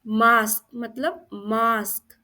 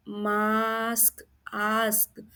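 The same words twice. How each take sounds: First: Said in the usual way. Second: मास्क very slowly, "aa" held long; slow drawn-out open vowel in मास्क; sounding out आ. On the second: Shown as a demonstration. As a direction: stretch मास्क, then repeat its ending आस्क. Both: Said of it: "इसमें आ का sound आ रहा है".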